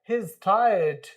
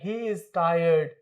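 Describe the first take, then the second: First: He and is are joined into one contracted word. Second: He and is are said as separate full words. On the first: The speaker calls it right. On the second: The speaker calls it wrong.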